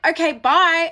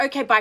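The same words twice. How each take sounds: First: High, loud dismissive goodbye; pointed send-off. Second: Said in the usual way. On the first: Retold or imitated. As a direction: act out shooing him away, pitched up. Acts out her hurried send-off.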